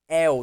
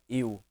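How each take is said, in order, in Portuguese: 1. O ditongo começa com e aberto. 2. O ditongo começa com e fechado. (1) "É el, ... Isso é um ditongo aberto" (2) "não é eu"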